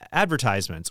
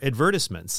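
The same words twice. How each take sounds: First: It is said the American way. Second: It is said the British way.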